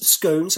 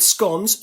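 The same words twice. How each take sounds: First: "scones" rhymed with "stones", long o; "scones" said as skohns, drawn-out vowel; other pronunciation. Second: "scones" rhymed with "cons", short o; "scones" said as skons, short clipped vowel; British pronunciation. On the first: Devon man teasing an American over scones, saying "scones" with a long o. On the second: Devon man teasing an American over scones, saying "scones" with a short o. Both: Shown as a demonstration. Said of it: "I'm not sure how you pronounce it".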